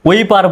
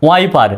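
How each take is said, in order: First: Wrong reading ওইপার, "wee-par"; ওইপার with short "oi" glide instead of "wai"; mispronounced. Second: ওয়াইপার with an open "ai" glide after w; correct pronunciation. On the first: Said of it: "তাহলে কিন্তু ভুল হবে". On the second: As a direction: say ওয়াইপার starting with "wai". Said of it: "এটা কিন্তু ওইপার নয়". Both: Shown as a demonstration.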